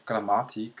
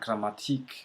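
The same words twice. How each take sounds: First: The stress is on the second syllable. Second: The stress is on the last syllable. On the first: The speaker calls it right. "emphasis on the second syllable" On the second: The speaker calls it wrong. "not on the last syllable"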